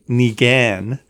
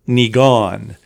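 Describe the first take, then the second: First: The last syllable does not sound like gone. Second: The last syllable sounds like gone. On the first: The speaker calls it wrong. "I've been saying Niigaan" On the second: The speaker calls it right. "it's really pronounced Niigaan. You know, like as in gone"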